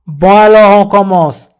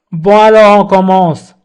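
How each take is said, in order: Both takes have the same delivery.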